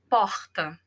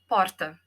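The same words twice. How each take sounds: First: The R is throaty, as in Rio speech. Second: The R is said the non-Rio Brazilian way.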